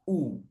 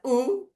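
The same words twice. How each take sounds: First: The vowel is said with rounded, pushed-out lips. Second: The vowel is said with spread lips. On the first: The speaker calls it right. "harus monyong ke depan" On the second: The speaker calls it wrong. "itu bibirnya nggak bulat, menyamping"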